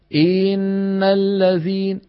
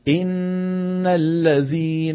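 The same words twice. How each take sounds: First: The first vowel is stretched into a long i. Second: The first vowel is kept short. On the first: The speaker calls it wrong. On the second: The speaker calls it right.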